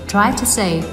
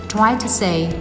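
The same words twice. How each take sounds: No difference in how they are said.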